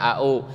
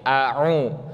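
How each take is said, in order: First: The second consonant is a plain glottal stop. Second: The second consonant is a throaty ain sound. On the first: The speaker calls it wrong. "menjadi hamzah dua-duanya" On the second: The speaker calls it right. "ada huruf hamzah dan huruf ain"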